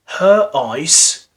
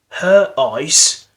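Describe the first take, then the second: The two takes are said the same way.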